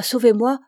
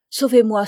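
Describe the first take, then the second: First: Louder, rising desperate plea; frightened plea. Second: Louder, frightened cry for help; frightened plea. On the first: Terrified princess begs the dwarf again, rising loud plea. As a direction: beg again, rising at the end. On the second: Terrified princess begs the dwarf, loud frightened plea. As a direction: beg him to save her, loud. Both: A narrator's reading. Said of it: "ma frayeur augmente".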